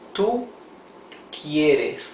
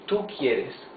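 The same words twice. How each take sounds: First: It is said slowly and carefully. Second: It is said at a normal pace.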